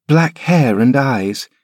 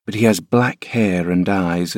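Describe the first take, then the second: First: Put-on high, slow, thoughtful child voice; a boy turning the words over slowly; musing boy. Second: Said in the usual way. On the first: Linton repeating his nurse's words, slow high musing boy. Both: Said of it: "mused Linton".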